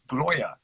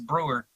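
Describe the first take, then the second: First: The name is said like 'Broya'. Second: The name is said like 'Brewer'. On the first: This is how the name is read in German. "he goes James Broya" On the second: This is how the family says its own name. "nah, it's Brewer"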